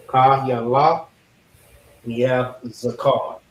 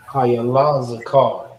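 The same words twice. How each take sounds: First: "Kayala" apart from "Zakar", "Kayala" rising; split into parts. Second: "Kayala Zakar" slowly, as one phrase with stress on "Kayala"; slow careful pronunciation. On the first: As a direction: say "Kayala", pause, then "Zakar". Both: Shown as a demonstration. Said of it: "'Cause reading it".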